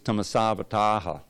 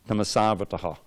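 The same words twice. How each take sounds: First: The vowel before the final ha is long. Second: The vowel before the final ha is short. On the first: The speaker calls it right. "But because it is long" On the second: The speaker calls it wrong. "if that long A was a short A without that line over it"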